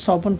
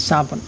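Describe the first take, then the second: First: "সবুন" starting with rounded so; saad alternative. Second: "সাবুন" starting with thin sa; seen pronunciation. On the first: Teacher allowing the other reading, "সবুন" with rounded so. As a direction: say "সবুন" with so in place of sa. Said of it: "আপনারা চাইলে সবুন পড়তে পারেন". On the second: Teacher giving the Urdu reading, "সাবুন" with sa. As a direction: say "সাবুন" with a seen's sa, not so. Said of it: "সিনের উচ্চারণ দিয়ে পড়ব". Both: Shown as a demonstration.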